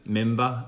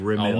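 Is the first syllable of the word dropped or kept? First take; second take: dropped; kept. First: The first syllable is dropped. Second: The first syllable is kept. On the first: The speaker calls it wrong. "I say member instead of" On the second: The speaker calls it right. "instead of remember"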